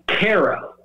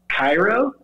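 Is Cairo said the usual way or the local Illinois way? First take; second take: local; usual. First: It is the local Illinois pronunciation of Cairo. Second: It is the usual pronunciation of Cairo. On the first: "Cairo is how they pronounce it" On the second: "it's spelled exactly like Cairo"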